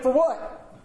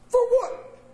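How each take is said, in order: First: Puzzled, half-laughing for what; clueless question. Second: Much higher, laughing, totally lost; baffled squeak. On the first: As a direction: ask it baffled with a laugh. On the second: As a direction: push the confusion way up into a squeak. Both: Retold or imitated. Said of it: "And I went".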